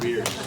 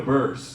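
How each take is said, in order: First: The name does not rhyme with curse. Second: The name rhymes with curse. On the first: The speaker calls it wrong. "not Bierce" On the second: The speaker calls it right. "Amanda Burse"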